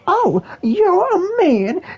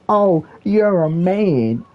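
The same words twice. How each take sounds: First: It is said in an exaggerated put-on voice. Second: It is said in a plain, near-normal voice.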